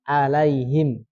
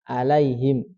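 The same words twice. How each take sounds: Both takes have the same delivery.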